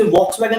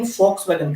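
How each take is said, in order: First: Volkswagen with a V at the start; V pronunciation. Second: Volkswagen with an F at the start; F pronunciation. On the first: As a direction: say Volkswagen as "VOKS-vagen". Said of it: "उसे Volkswagen नहीं कहेंगे". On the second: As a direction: say Volkswagen as "FOKS-vagen". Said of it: "क्या कहेंगे?". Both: Shown as a demonstration.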